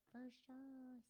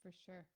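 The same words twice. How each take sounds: First: Put-on airy Valley girl 'for sure'. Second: Said in the usual way. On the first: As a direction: play a ditzy Valley girl. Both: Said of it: "Sound like a Valley girl".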